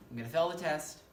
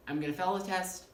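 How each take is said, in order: Both takes have the same delivery.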